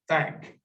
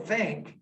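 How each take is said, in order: First: The vowel is the 'a' of cat. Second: The vowel is the short 'i' of sit.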